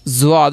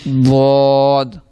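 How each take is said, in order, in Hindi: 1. शब्द एक गूंजती z-जैसी आवाज़ से शुरू होता है। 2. शब्द एक भारी d-जैसी आवाज़ से शुरू होता है। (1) "ज़्वाद नहीं से पढ़ना" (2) "क्या पढ़ना है? द्वाद।"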